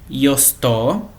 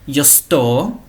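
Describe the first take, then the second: No difference in how they are said.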